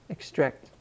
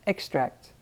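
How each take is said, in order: First: The stress is on the second syllable. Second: The stress is on the first syllable. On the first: It means to take something out. "with the emphasis over that A here" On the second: It names something taken out of another product. "another noun that is spelled the same as the verb, but with a different pronunciation"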